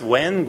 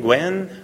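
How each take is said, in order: First: "Nguyen" said like "wen", higher and questioning; unsure pronunciation. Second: "Nguyen" said like "gwen", pitched higher; second pronunciation guess. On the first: Host asking guest about his surname, unsure pronunciation. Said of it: "I always get the Vietnamese pronunciation mixed up". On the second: Host trying the surname another way, tentative pronunciation. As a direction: try "Nguyen" as "gwen", with a hard g. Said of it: "How do you pronounce it?". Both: Shown as a demonstration.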